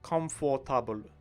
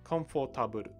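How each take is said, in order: First: It is said with a Japanese-style pronunciation. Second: It is said with a Japanese-style pronunciation.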